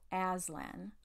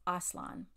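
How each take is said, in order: First: The first vowel sounds like the a in cat. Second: The first vowel sounds like the a in father. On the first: "Americans go Aslan" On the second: "he almost always said ah, like the word father"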